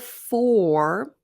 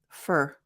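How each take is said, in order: First: The word has a full vowel. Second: The word has a reduced vowel. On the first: "instead of for" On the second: "So we have a reduction, for to fur"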